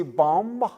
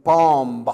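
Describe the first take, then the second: First: Said in the usual way. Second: Bomb said with its silent B pronounced, /pɑmb/; with the B sounded. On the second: Shown as a demonstration. Teacher mocking the silent B: bomb with B spoken. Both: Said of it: "do you just say bomb".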